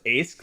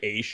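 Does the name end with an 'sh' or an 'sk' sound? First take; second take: sk; sh. First: The name ends with an 'sk' sound. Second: The name ends with an 'sh' sound. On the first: The speaker calls it wrong. "phonetically pronouncing it like as it's spelled" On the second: The speaker calls it right. "as it's supposed to be"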